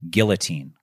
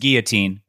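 First: The double L is sounded as an L. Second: The double L is sounded as a Y. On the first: The speaker calls it wrong. "is he pronouncing this word correctly?" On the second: The speaker calls it right. "a double L in, there is pronounced like a Y"

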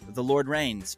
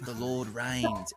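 First: It is said in an American accent. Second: It is said in an Australian accent.

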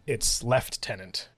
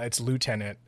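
First: It is said with a British accent. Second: It is said with an American accent.

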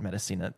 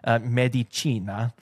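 First: The name is said with an English-style pronunciation. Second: The name is said with an Italian-style pronunciation. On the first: The speaker calls it wrong. "it's not Medicina" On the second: The speaker calls it right. "it's in Italy. It's Medicina"

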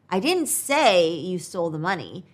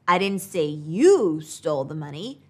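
First: The stress is on the word 'say'. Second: The stress is on the word 'you'. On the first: The speaker implied it but did not say it. "could mean that I implied it, but I didn't say it" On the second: The speaker said someone else stole it, not the listener. "could mean that I said someone else stole the money, but not you"

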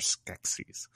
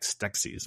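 First: The word is said without a t sound. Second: The word is said with a t sound. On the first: The speaker calls it right. "but they're Skeksis" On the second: The speaker calls it wrong. "I always thought there was a T in there"

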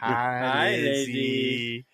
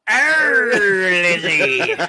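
First: It is said in a creepy, peering voice. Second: It is said in a growly pirate voice.

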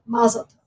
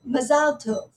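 First: It is said with an American pronunciation. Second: It is said with an Israeli pronunciation. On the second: "an Israeli might say"

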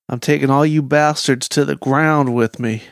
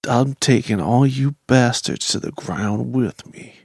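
First: It is said at a faster pace. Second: It is said at a slower pace.

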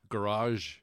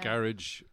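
First: It is said in an American accent. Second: It is said in an Irish accent.

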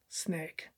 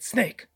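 First: The word is said without urgency. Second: The word is said with urgency. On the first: A big snake was found. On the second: A small snake was found.

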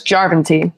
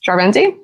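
First: The stress is on the first syllable. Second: The stress is on a later syllable. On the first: The speaker calls it right. "This is on the first syllable in Finnish" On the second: The speaker calls it wrong.

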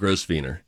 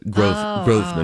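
First: The name is said fully as it is spelled. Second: The name is said in a shortened form. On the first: The speaker calls it wrong. "not Grosvenor" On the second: The speaker calls it right. "That's how you pronounce it"

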